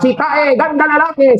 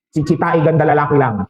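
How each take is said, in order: First: High-pitched boastful call; mock shout. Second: Said in the usual way. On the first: Joke character shouting for an echo, high mock shout. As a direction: call it out high, as if across a valley. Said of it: "Dahil nung sumigaw siyang".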